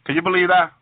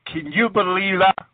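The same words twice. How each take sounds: First: Said in the usual way. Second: Slower, leaning on "you" in disbelief; stress on YOU. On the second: Real, not acted. Preacher asks listeners about the Lord being welcome, stressing "you". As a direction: draw out the word "you" with emphasis. Repeats question with more emphasis.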